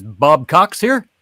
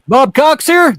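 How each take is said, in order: First: Slow, deliberate repeat; retold slowly on request; slow retelling. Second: Very high, loud voice; joke customer. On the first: Shown as a demonstration. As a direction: spell it out slowly. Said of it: "say it again". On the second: Acted. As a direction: squeak it out high.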